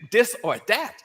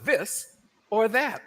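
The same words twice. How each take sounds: First: The words begin with a d sound. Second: The words begin with a th sound. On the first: "the T H is substituted with a D, as in"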